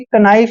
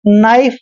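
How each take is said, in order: First: A k sound is pronounced before the n. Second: The word starts directly with the n sound. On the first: The speaker calls it wrong. "कभी भी कनाइफ नहीं पढ़ना है" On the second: The speaker calls it right. "हमेशा नाइफ पढ़ते हैं"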